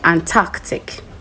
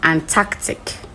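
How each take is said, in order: First: It is said in a British-style accent. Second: The same.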